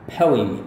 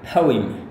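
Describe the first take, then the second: No difference in how they are said.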